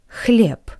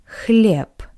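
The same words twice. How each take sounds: Both takes have the same delivery.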